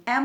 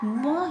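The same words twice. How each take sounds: First: "एम" as the English letter name; "एम" with the vowel before the m. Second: "म" as a bare m sound with short vowel; "म" sounded as muh; phonic sound. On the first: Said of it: "एम नहीं पढ़ेंगे". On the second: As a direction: say the sound "म", not the letter name. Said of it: "म ही पढ़ेंगे". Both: Shown as a demonstration.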